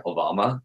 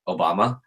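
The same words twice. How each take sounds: First: Soft, flat, bored guess; a bored shrug of a question; deadpan. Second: Flat, unimpressed question; deadpan. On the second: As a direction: say it like you don't care. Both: Retold or imitated. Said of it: "Like, really deadpan".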